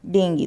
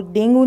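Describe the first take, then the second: First: डेंगी ending in "ee", falling; correct pronunciation. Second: डेंगू ending in "oo"; wrong pronunciation. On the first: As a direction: model डेंगी as DENG-gee. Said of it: "आपको बोलना है डेंगी". (डेंगी का सही उच्चारण) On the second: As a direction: show डेंगू with the everyday "गू" ending. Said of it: "डेंगू नहीं बोलना है". (डेंगू वाला गलत उच्चारण) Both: Shown as a demonstration.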